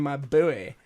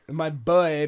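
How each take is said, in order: First: The word is stretched into a two-syllable 'boo-ee'. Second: The word is said as a plain one-syllable 'boy'.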